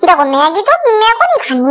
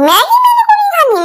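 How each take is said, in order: First: Said in the usual way. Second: Much higher whining refusal; sulking child refusing Maggi, whined much higher; whiny demand. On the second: Retold or imitated. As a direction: whine it way up high like a sulking kid. Child demanding mango from mom.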